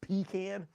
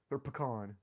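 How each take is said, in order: First: "Pecan" said as PEE-kan, stress on the first syllable, short flat a; "Pecan" with a long ee in the first syllable and a clipped kan; PEE-can pronunciation. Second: "pecan" said as puh-KAHN, stress on the second syllable with an open ah; "pecan" with a weak first syllable and a long KAHN; pe-KAHN pronunciation. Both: Shown as a demonstration. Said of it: "do you guys call it pecan or pecan?".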